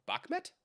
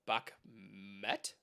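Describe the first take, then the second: First: "Bakhmet" in one quick go, rising high; questioning second attempt. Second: "Bakhmet" drawn out in two separate halves; tentative sounding-out. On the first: Streamer checking a viewer's name, "Bakhmet" said quickly with high questioning rise. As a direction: try "Bakhmet" whole, as a question. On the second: Streamer puzzling over a viewer's name, "Bakhmet" slowly sounded out. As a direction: sound out "Bakhmet" piece by piece, questioning. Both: Real, not acted. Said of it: "how do I say that?".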